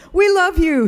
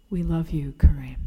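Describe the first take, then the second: First: Raised, beaming call of affection, much higher and louder; Kareem's greeting. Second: Tearful whisper. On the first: Retold or imitated. Attendant greeting the family's car, high bright call. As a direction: hail the family from the pumps, pitch well up. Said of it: "he'd say". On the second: Real, not acted. Narrator writing the farewell card, tearful whisper. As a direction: breathe the words like a card you can barely finish. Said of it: "and wept as I wrote".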